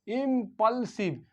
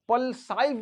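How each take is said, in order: First: The last syllable has a short 'ih' vowel. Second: The last syllable has a long 'eye' vowel. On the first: The speaker calls it right. "Short आई" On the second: The speaker calls it wrong. "पल्साइव पढ़ना गलत है।"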